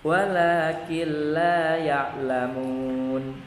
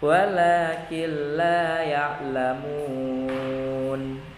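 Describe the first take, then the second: First: The final long vowel is held for two beats. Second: The final long vowel is held for four beats. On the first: "Kita baca yang dua harokat. ... itu dua harokat" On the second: "Kita baca empat harokat"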